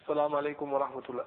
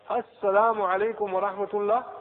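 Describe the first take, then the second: First: The words are run together and slurred. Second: The words are pronounced clearly and distinctly. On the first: The speaker calls it wrong. "don't say assalamu alaikum wa rahmatullah" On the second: The speaker calls it right. "It's assalamu alaikum"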